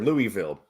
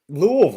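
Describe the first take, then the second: First: The last syllable sounds like vill. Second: The last syllable sounds like vull.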